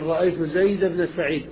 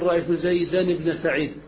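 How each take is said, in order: First: Zayd has no nasal -an ending before ibn. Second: Zayd has a nasal -an ending before ibn. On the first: The speaker calls it right. "تقول" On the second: The speaker calls it wrong. "ولا تقول"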